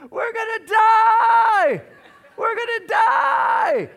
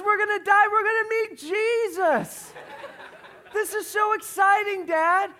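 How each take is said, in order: First: Very high, very loud drawn-out shriek; imitated toddler screaming in full panic; screaming three-year-old. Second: Put-on gleeful high, loud child's shout; imitated little girl thrilled by disaster; happy about it. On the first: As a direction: wail it in terror, stretching the last word. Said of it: "screaming at the top of her lungs". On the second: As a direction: shout it joyfully, high and ecstatic. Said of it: "But she's happy about it".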